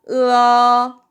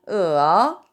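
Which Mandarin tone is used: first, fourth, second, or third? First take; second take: first; third. First: It is said with the first tone. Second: It is said with the third tone. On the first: "1성부터 시작할게요" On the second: "3성은"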